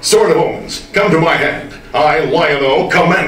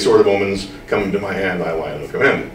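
First: It is said with heightened, heroic energy. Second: It is said in a relaxed, conversational way. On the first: "When I do the show, I would say" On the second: "when I'm sitting here talking to you, I might say"

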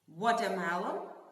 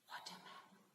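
First: The word is said loudly. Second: The word is whispered.

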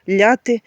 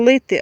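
First: The vowel after the L sounds like 'ya'. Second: The vowel after the L sounds like 'y'. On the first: This is the local dialect form. The speaker calls it wrong. "я кажу ляти ... в нас такий говір" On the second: This is the standard form. The speaker calls it right. "правильно, лити"

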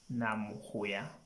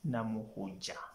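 First: The last consonant is a 'y' sound. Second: The last consonant is a 'j' sound. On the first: The speaker calls it right. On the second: The speaker calls it wrong.

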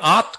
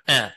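First: The vowel is a pure open a sound. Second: The vowel is halfway between a and e. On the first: The speaker calls it wrong. "Đừng đọc là art" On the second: The speaker calls it right. "mà là at, nửa a nửa e"

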